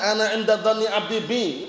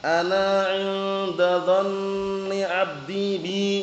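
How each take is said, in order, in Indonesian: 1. Dibaca biasa dan langsung, tanpa lagu. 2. Dilantunkan dengan gaya bacaan bernada. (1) "Langsung aja" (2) "jangan dibaca"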